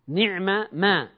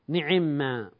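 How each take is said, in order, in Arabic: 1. تُلفظ الميمان منفصلتين. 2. تُدغم الميمان في ميم واحدة مشددة. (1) "وأصلها نعمة ما" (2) "ثم حصل الإدغام فصارت نعما"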